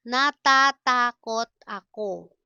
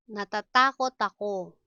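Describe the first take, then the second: First: Louder, separated syllables. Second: Said in the usual way. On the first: Shown as a demonstration. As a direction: sound out each syllable firmly. Slow model, then natural speed.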